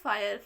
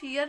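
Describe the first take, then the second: First: The vowel sounds like 'eye'. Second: The vowel sounds like 'ee'. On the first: The speaker calls it right. "इसको हम पढ़ेंगे फायर" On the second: The speaker calls it wrong. "इसको हम फियर नहीं पढ़ेंगे"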